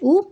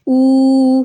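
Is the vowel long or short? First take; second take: short; long. First: The vowel is short and quick. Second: The vowel is drawn out long. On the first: "अगर पेश के साथ पढ़ना तो हम इसको जल्दी पढ़ेंगे" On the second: "अगर उल्टा पेश के साथ पढ़ना"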